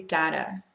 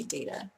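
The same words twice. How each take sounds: First: "data" as DAT-uh, short a; short a in data, as in cat; typical data. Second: "data" as DAY-tuh, long a; fancy data. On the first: Speaker giving own usual word, data as dat-uh. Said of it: "I typically say data". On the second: Speaker showing the fancy version, data as day-tuh. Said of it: "only in fancy times would I say data". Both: Shown as a demonstration.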